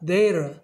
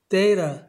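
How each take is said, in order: First: The middle t is flapped, like an r. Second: The same.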